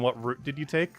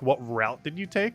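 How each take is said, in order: First: Route rhymes with boot, not with out. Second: Route rhymes with out, not with boot. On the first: "Rather than" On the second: "The only time I wouldn't say root is if I'm talking about a trail"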